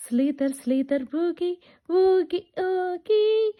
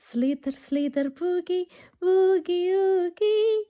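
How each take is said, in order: Both takes have the same delivery.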